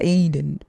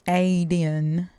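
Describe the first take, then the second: First: The word has the usual American pronunciation. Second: The word has a different, non-American first vowel. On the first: This is the Westernized form. The speaker calls it wrong. "America westernized says the Garden of Eden" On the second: This is the original form. The speaker calls it right. "but it's actually Aden"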